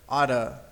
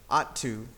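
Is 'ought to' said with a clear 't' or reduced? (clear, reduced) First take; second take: reduced; clear. First: The words blend into one reduced word. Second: Both words are said separately and clearly.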